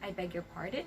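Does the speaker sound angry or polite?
polite. It is said in a polite tone. The listener wants it repeated. The speaker calls it right. "the correct intonation would be"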